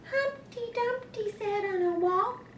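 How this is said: It is said in a Baby Bear voice.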